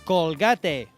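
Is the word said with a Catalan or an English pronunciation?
Catalan. It is said with a Catalan pronunciation. The speaker calls it wrong. "Catalan pronunciation of English words"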